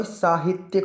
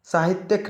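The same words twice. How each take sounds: First: साहित्यिक with long "saa" and final "-tyik"; correct pronunciation. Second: साहित्यिक ending in "-tyak"; wrong pronunciation. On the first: Teacher corrects it for students, careful pronunciation. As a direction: say साहित्यिक as "saa-hit-yik". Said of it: "साहित्यिक होता है". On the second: Teacher shows students the error, mispronounced. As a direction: say साहित्यिक as "sa-hit-yak". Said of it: "साहित्यिक नहीं होता भाई". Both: Shown as a demonstration.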